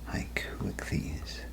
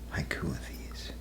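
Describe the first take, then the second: First: The name is said slowly, in separate parts. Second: The name is said quickly, run together.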